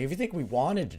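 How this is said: The word 'wanted' carries strong stress. It sounds apologetic, denying any intent. The speaker calls it right. "He should have emphasized the wanted to make it sound apologetic"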